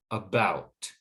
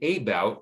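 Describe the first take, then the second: First: The first syllable has a schwa vowel. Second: The first syllable has a long A vowel. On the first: The speaker calls it right. "the first syllable changes from a long A to the schwa" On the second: The speaker calls it wrong. "We don't say about"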